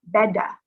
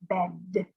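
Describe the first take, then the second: First: An extra vowel sound follows the final D. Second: The word ends cleanly on the D sound. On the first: The speaker calls it wrong. "we do not want to say beda" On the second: The speaker calls it right. "We want to say bed"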